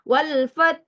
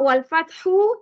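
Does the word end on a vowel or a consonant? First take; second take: consonant; vowel. First: The word ends abruptly on the final consonant. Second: The word ends with a short final vowel. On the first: The reader stops at this word. "kalau kita nak berhenti wal fath" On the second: The word is read as written, without stopping. "Kita nampak wal fathu"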